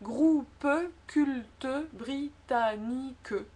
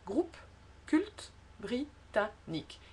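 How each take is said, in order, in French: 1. Les e finaux de groupe et culte sont prononcés. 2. Les e finaux de groupe et culte ne sont pas prononcés. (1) "Quelques personnes, surtout dans le sud de la France, disent" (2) "si on prononce pas le E, ça va"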